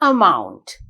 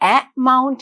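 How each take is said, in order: First: The first vowel is a weak 'uh' sound. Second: The first vowel is a full, clear vowel. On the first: The speaker calls it right. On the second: The speaker calls it wrong. "amount නෙවෙයි"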